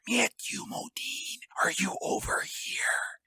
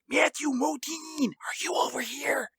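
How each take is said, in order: First: It is whispered slowly and drawn out. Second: It is whispered at a normal speed.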